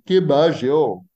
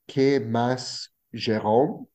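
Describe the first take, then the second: First: Consonants are weakened, coastal Ecuadorian style. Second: Consonants are pronounced clearly, inland Ecuadorian style.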